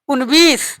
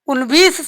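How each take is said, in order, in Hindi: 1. बीच में v ध्वनि बोली जाती है। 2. बीच में v ध्वनि बोली जाती है।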